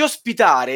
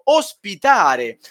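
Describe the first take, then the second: First: Said in the usual way. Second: OSPITARE drawn out and underlined; pointedly emphasized "ospitare"; stress on OSPITARE. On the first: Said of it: "sottolineo ospitare". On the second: Real, not acted. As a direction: lean deliberately on the word ospitare. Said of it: "e sottolineo ospitare".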